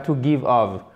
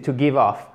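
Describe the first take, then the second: First: The last word is pronounced like 'of'. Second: The last word is pronounced like 'off'. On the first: The speaker calls it wrong. "c'est pas to give off" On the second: The speaker calls it right. "c'est to give off"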